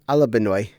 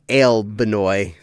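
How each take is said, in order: First: The name begins with 'ah-la'. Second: The name begins with 'ale'. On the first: The speaker calls it right. "I'm pronouncing it in my head Alabunny, Alabenoy" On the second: The speaker calls it wrong. "not not Ale Benoy"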